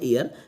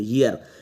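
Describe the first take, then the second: First: The word begins directly with a vowel sound. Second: The word begins with a clear y sound. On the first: The speaker calls it wrong. "ईयर मैंने भी बोला है" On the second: The speaker calls it right. "वाई या का sound देता है। ईयर बोलो इसको"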